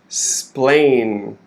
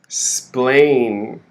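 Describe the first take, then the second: Both takes have the same delivery.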